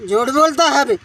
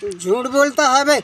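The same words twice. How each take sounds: First: The same rebuke again, louder, a near yell; retold shout. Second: A policeman's rough rebuke, voiced by the victim; retold angry accusation. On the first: Victim retelling the policeman shouting him down, louder yell. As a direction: push it harder, shouting him down. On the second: Victim retelling the policeman calling him a liar, gruff scolding.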